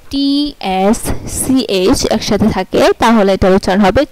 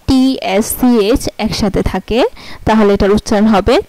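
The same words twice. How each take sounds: The two takes are said the same way.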